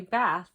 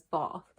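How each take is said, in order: First: "bath" with a flat short a, as in "cat"; "bath" in an American accent, with a flat short a. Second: "bath" with a long broad ah, like "bahth"; "bath" in an English accent, with a broad ah; British bath. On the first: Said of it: "But I would say". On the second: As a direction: say "bath" the way her English husband does, broad ah. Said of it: "'cause my husband says". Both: Retold or imitated.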